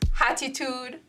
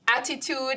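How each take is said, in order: First: The word begins with an added H sound. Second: The word begins with a plain vowel sound.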